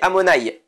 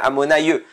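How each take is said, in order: First: The name ends in a plain 'ai' sound. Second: The name ends with an extra 'yeh' sound. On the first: The speaker calls it right. "mais on dit Amonaï" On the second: The speaker calls it wrong. "si on fait un ye, ça change le nom, ça ferait Amonaïe, c'est pas ça"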